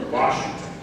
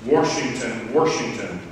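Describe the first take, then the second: First: Said in the usual way. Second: Washington said "Warshington", with an r in the first syllable; old regional pronunciation. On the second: Shown as a demonstration. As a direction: put an r into Washington: "WARSH-ington". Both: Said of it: "No longer was".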